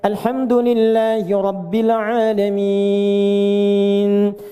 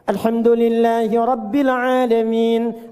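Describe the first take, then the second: First: The final vowel is held about three seconds. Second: The final vowel is held about one second. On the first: "Enam harakat" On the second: "Atau boleh dibaca satu detik, dua harakat. Untuk bacaan cepat"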